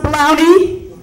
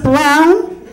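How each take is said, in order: First: The name ends with an added ee sound. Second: The name ends on a plain n sound. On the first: The speaker calls it wrong. "It's not pronounced brownie" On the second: The speaker calls it right. "It's just brown"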